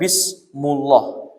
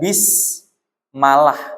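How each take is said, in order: First: The vowel after bism is u. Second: The vowel after bism is a.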